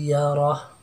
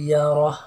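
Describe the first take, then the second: Both takes have the same delivery.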